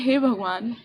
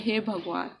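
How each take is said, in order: First: Said in the usual way. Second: A soft, quiet "हे भगवान" sighed upward. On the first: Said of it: "तो मैं कहती हूँ". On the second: Retold or imitated. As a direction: softly sigh "हे भगवान" as if looking up to the sky. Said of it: "ऊपर देख के इंसान कहता है". (ऊपर देखकर धीमे से "हे भगवान")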